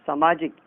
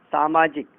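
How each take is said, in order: First: सामाजिक begun with short "sa"; wrong short vowel. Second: सामाजिक begun with long "saa"; correct long vowel. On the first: Teacher showing how people err, सामाजिक with short first vowel. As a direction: say सामाजिक as "samaajik". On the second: Teacher correcting learners, सामाजिक with long first vowel. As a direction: say सामाजिक as "saamaajik". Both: Shown as a demonstration. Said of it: "गलत बोलते हैं".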